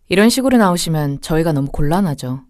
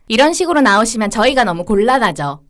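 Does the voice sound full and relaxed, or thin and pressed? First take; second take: full; pressed. First: The voice is full and relaxed. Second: The voice is thin, light and pressed. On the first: The speaker calls it right. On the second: The speaker calls it wrong.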